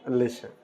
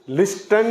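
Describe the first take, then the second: First: The t sound is left out in the middle. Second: The t sound is pronounced in the middle. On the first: The speaker calls it right. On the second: The speaker calls it wrong. "लिस्टन नहीं पढ़ेंगे इसको गलती से"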